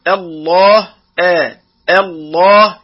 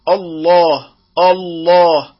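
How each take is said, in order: First: الله opening on a thin, fronted آ before the heavy lam; light hamza. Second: الله opening on a dark 'o'-like hamza; heavy hamza. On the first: Tajweed teacher models الله properly, light opening hamza. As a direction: keep the first vowel of الله light and clear. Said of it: "يفخم الهمزة فيقول". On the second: Tajweed teacher shows the mistake, الله with heavy hamza. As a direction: thicken the first vowel of الله to match the heavy lam. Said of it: "وهذا أيضًا خطأ". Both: Shown as a demonstration.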